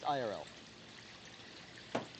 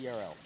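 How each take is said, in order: First: The first letter sounds like 'eye'. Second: The first letter sounds like 'ee'. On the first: The speaker calls it right. "It's I R L" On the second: The speaker calls it wrong. "I love the way you say E R L"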